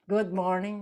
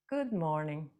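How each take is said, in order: First: It is said in an angry, annoyed tone. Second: It is said in a gentle, kind tone.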